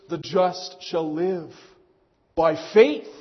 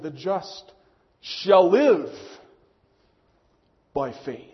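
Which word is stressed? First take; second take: faith; live. First: The stress is on the word faith. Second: The stress is on the word live.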